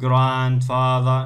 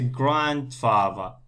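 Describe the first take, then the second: First: The second syllable, fa, is stressed. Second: The first syllable, grand, is stressed. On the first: The speaker calls it wrong. "not grandfather, no" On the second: The speaker calls it right. "Here the stress on grand. Okay, so we say grandfather"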